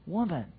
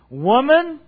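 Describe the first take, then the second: First: The word sounds gentle and tender. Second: The word sounds harsh and stern. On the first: The speaker is showing her grace. The speaker calls it right. "it's tender" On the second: The speaker is scolding her. The speaker calls it wrong. "It is not Jesus saying"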